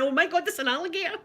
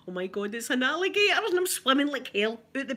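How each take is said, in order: First: High, fast mock panic; panicked. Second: Mild alarm. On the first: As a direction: blurt it out in a fake fright. Retold panic, second time. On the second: Retold or imitated. Retold panic in the pool.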